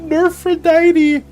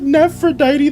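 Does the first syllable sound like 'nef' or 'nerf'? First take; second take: nerf; nef. First: The first syllable sounds like 'nerf'. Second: The first syllable sounds like 'nef'. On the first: The speaker calls it right. "It's supposed to be Nerfrodite" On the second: The speaker calls it wrong. "And I said Nephrodite this whole time!"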